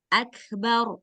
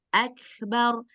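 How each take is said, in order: Both takes have the same delivery.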